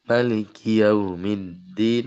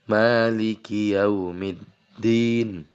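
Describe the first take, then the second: First: The first vowel of maliki is said short. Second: The first vowel of maliki is held long. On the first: "Boleh juga pendek" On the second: "Boleh panjang"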